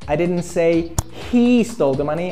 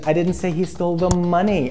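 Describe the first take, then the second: First: The stress falls on the word he. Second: The stress falls on the word money. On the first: Someone else took the money. "I said another guy stole the money" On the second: Something other than money was taken. "I said he stole the car"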